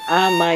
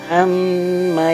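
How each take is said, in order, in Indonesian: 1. Bunyi m ganda dipendekkan tanpa tahanan sengau. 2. Bunyi m ganda dibaca panjang dengan dengung sengau. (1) "Jangan amma yatasa, salah" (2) "mim bertasydid, gunnah. Berarti harus ditahan"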